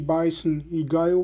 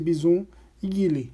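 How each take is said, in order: First: The names have an English-like pronunciation. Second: The names have a Brazilian Portuguese pronunciation. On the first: "em vez de" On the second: "eu vou usar a pronúncia abrasileirada"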